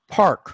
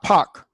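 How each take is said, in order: First: The R sound is clearly pronounced after the vowel. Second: The R sound is dropped after the vowel. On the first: This is how the speaker himself says it. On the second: This is how people in the Boston region say it.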